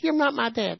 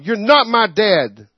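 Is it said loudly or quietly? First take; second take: quietly; loudly. First: It is said quietly and mildly. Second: It is yelled very loudly.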